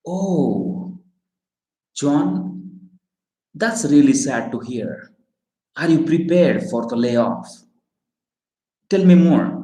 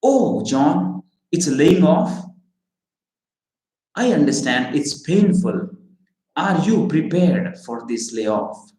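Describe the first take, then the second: First: Sympathetic sad. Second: Caring. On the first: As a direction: lean in and let the voice contract with sadness. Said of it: "If that is a sad thing". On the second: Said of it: "show your genuine care ... what would you say?". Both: Shown as a demonstration.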